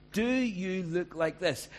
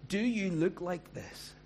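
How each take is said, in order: First: Higher, louder and slow; raised, slow challenge. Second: Higher, slow probing question; slow challenging question; searching question. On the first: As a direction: press the question home. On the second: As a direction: ask it straight at them, slow. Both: Shown as a demonstration.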